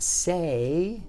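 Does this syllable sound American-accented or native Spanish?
American. It is said with an American accent. The speaker calls it wrong. "how a lot of people with accents, American accents or foreign accents would speak Spanish"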